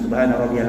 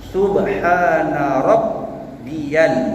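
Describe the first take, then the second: First: The b in Rabbiyal is short and single. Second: The b in Rabbiyal is held doubled. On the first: The speaker calls it wrong. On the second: The speaker calls it right.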